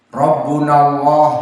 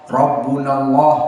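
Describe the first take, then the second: No difference in how they are said.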